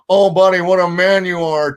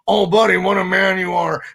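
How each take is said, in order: First: The impression sounds only slightly worn and raspy. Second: The impression sounds noticeably more worn and raspy.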